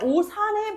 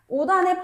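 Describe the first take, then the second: First: The final consonant links as an s sound. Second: The final consonant links as a d sound. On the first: The speaker calls it wrong. "라고 얘기하지 않지" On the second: The speaker calls it right. "라고 얘기하지"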